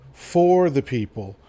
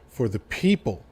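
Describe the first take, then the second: First: The stress falls on the word for. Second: The stress falls on the word people. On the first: The speaker calls it wrong. "People tend to put the emphasis in the wrong parts of the quote" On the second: The speaker calls it right. "he put the emphasis on the word people"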